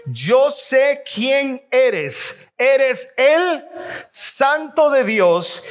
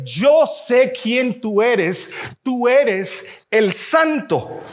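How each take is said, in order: First: Slow, drawn-out, every word weighed; slow group reading of the demon's words; slow reading aloud together. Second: Very slow, each word weighed; slow, solemn demon's admission; demon's words, slowly. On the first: Shown as a demonstration. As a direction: read it slowly with the congregation. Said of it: "lea conmigo". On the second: Acted. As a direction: drag out the demon's confession. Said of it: "El demonio le dice".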